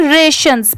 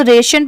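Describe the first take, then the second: First: "रेशंस" said RAY-shuns, closing on s. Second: "रेशन" said RAY-shun, ending on n; without the s. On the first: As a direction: add a final s to "रेशंस". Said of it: "एस लगने की वजह से". ("रेशंस" के अंत में स) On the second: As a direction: end "रेशन" on n, no s. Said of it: "सिर्फ इतना होता तो रेशन पढ़ते". ("रेशन" बिना स के) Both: Shown as a demonstration.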